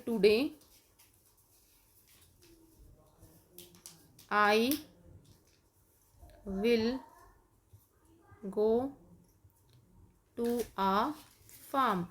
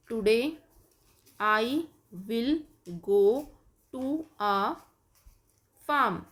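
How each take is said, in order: First: Today I will go to a farm, very slowly with long pauses; slow dictation. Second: Today I will go to a farm, word by word with gaps; slow dictation. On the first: Teacher dictating slowly while kids write. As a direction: dictate each word at writing speed. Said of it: "आप लिखेंगे". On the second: Teacher dictating example sentence, slow and spaced. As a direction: dictate each word slowly. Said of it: "जैसे आप बनाएंगे". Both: Shown as a demonstration.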